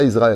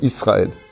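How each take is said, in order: First: The consonant after the first vowel sounds like Z. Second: The consonant after the first vowel sounds like S. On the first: The speaker calls it wrong. "Arrêtez les francophones de dire Israël. C'est pas avec un Z" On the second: The speaker calls it right. "c'est avec un signe, pas avec un"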